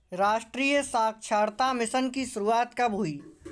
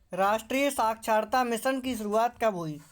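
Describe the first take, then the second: No difference in how they are said.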